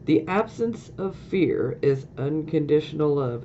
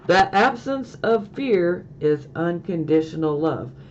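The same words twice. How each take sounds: First: It is said at normal volume. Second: It is said more loudly.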